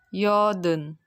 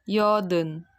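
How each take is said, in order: No difference in how they are said.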